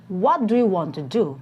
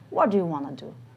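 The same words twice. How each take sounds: First: Each word is said clearly and separately. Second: The words are reduced and run together.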